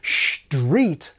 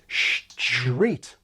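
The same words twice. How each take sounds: First: It starts with sh, then a plain t. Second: It starts with s, then a ch sound. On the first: The speaker calls it wrong. "not street" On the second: The speaker calls it right. "intervening stop has undergone train changing"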